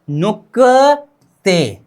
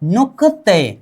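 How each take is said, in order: First: नुकते drawn out very slowly, syllable by syllable; slow demo. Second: Said in the usual way. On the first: Shown as a demonstration. Teacher modelling the Korean word for students, very slowly. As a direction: stretch नुकते out slowly for the class. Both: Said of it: "क्या?".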